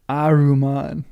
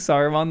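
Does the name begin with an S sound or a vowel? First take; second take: vowel; S sound. First: The name begins with a vowel sound. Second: The name begins with an S sound. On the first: The speaker calls it right. "It's really a silent S" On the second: The speaker calls it wrong. "Imagine if I've been saying Saruman the whole wrong"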